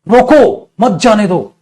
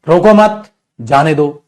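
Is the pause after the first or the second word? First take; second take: first word; second word. First: The pause comes after the first word, रोको. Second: The pause comes after the second word, मत.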